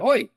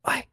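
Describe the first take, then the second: First: The word is shouted loudly. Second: The word is whispered quietly.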